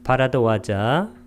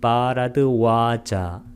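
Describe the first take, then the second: First: The ba and wa vowels are said short. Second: The ba and wa vowels are drawn out long.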